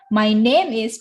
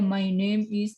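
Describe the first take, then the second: First: It is said with lively, varied intonation. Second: It is said in a flat, level voice. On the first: The speaker calls it right. "tapi my name is Pedro gitu ya" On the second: The speaker calls it wrong. "jangan datar aja my name is, tidak begitu"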